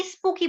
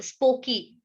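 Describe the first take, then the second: First: "स्पूकी" with a long "oo" vowel; correct pronunciation. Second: "स्पोकी" with a long "oh" vowel; mistaken pronunciation. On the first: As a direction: say "स्पूकी" as SPOO-kee. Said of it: "spooky is the correct pronunciation". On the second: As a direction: say "स्पोकी" as SPOH-kee. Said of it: "स्पोकी बोलेंगे कि स्पूकी". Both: Shown as a demonstration.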